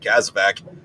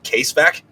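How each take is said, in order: First: The first syllable sounds like 'kaz'. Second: The first syllable sounds like 'case'. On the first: The speaker calls it right. "calling it a fucking Kazvac" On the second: The speaker calls it wrong. "he kept pronouncing it Casevac"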